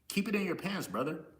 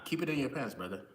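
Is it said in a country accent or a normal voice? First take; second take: country accent; normal voice. First: It is said in a white country accent. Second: It is said in his normal voice.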